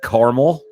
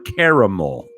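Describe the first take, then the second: First: It is said with two syllables, car-mel. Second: It is said with three syllables, car-a-mel. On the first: "like C A R M E L" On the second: "like it's spelled C A R A M E L"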